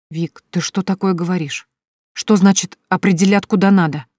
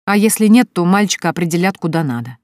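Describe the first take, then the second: First: Louder, indignant echo of "определят куда надо". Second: Said in the usual way. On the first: A narrator's reading. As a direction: throw "определят куда надо" back at her, outraged. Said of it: "возмутилась Соня". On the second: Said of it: "продолжала Вика".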